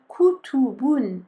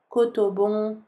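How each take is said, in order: First: The vowels are sounded like an 'u'. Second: The vowels are sounded like an 'o'. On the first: The speaker calls it right. "on essaie de faire kutubun" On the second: The speaker calls it wrong. "on ne doit pas entendre koto, kotobon"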